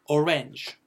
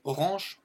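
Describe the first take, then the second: First: Orange said the English way, A opened toward "e"; English pronunciation. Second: Said in the usual way. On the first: Shown as a demonstration. Teacher contrasts it with the French word, English pronunciation of orange. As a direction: say orange as "o-renge", falling tone. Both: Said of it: "on aère un peu le".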